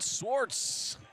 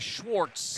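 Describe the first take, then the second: First: The name begins with a plain 's' sound. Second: The name begins with an 'sh' sound. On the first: The speaker calls it right. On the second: The speaker calls it wrong.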